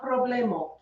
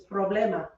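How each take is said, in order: First: Problemo ending in O in place of A; mistaken O ending. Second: Problema ending in an A sound; correct A ending. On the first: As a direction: say problemo with a final O sound. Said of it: "It's not problemo". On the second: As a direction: say problema, pro-BLE-ma. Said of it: "It's problema". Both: Shown as a demonstration.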